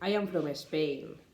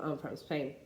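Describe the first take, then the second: First: A vowel sound comes before the s in Spain. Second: Spain starts directly with the s sound. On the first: The speaker calls it wrong. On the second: The speaker calls it right.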